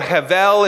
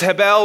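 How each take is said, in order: First: The middle consonant is a V sound. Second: The middle consonant is a B sound.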